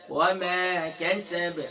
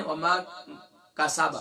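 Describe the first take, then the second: First: "وما کسب" recited slowly with thin ae vowels; drawn-out "وما", light clipped "کسب" stopped on b. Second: "وما کسب" with broad open a vowels; everyday "کسب", thick a instead of light ae; heavy-vowel mistake. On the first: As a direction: model "کسب" as keseb, long "وما". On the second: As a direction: demonstrate "کسب" wrongly as kaa-saa-ba. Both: Shown as a demonstration. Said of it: "کسب نہیں ہے".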